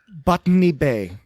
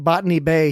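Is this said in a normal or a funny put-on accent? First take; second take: put-on; normal. First: It is said in a funny put-on accent. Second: It is said in a normal accent. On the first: This is how the character mispronounced the name. "he says Botany Bay" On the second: This is the usual way to say the name. "instead of saying Botany Bay"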